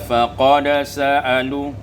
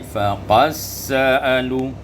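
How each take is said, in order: First: The d is pronounced before the s. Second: The d merges into a doubled s.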